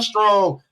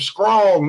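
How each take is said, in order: First: The word begins with an str sound. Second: The word begins with an skr sound. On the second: "S K R O N G"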